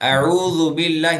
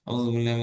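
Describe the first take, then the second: First: It is said clearly with an open mouth. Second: It is mumbled quietly inside the mouth. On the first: The speaker calls it right. "நல்லா வாயை விட்டு சொல்லணும்" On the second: The speaker calls it wrong. "இப்படி சொன்ன வாய்க்குள்ளே சொல்லக்கூடாது"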